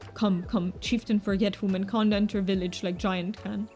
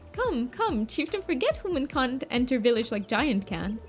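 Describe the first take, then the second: First: It is said in a low-pitched voice. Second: It is said in a high-pitched voice.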